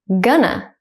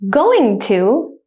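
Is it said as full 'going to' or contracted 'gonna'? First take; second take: contracted; full. First: It is said fast as contracted 'gonna'. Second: It is said slowly as full 'going to'. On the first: "at a native speaker speed second" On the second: "I will say it slowly first"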